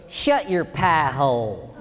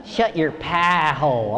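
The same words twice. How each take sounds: First: Slow, low Southern drawl; Kentucky accent. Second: Slow, low Southern drawl with a lazier vowel; Kentucky accent. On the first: Wife teasing the comic after the show, slow Kentucky drawl. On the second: Wife repeating her line, slow Kentucky drawl. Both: Retold or imitated. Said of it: "it's the accent that gets you".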